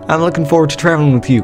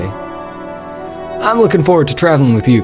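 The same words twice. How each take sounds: First: It is spoken without the Southern accent. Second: It is spoken in an American Southern accent.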